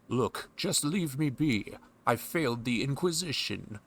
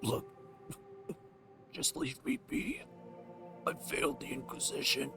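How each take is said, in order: First: It sounds like a plain, uninjured game character. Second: It sounds weak and injured, like someone dying.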